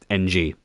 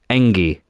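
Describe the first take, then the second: First: The name is said as two separate letters. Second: The name is said as one smooth word. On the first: The speaker calls it wrong. "it's just not pronounced N G" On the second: The speaker calls it right. "It was about how it was pronounced. It's Engi"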